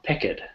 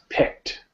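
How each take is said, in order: First: The ending is pronounced as it is spelled. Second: The ending is not pronounced as spelled. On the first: The speaker calls it wrong. "It's not picked" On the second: The speaker calls it right. "not pronounced the way it looks"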